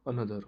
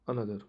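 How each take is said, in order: Both takes have the same delivery.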